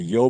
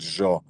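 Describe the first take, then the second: First: It is said with a standard Spanish accent. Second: It is said with an Argentine Spanish accent. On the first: "в классическом испании" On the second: "Они говорят"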